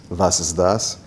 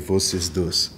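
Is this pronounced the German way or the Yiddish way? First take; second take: German; Yiddish. First: It is said with standard German pronunciation. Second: It is said with Yiddish pronunciation.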